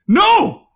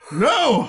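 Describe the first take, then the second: First: It is said loudly, not calmly. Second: It is said in a calm voice.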